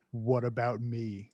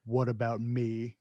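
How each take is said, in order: First: Slow, low Stallone mumble; Stallone impression. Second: Slow, low mumbled Stallone; Stallone impression. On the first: Quoting the line for a laugh, slow and low like Stallone. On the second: Retelling the movie, mumbling it slowly like Stallone. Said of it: "Stallone goes".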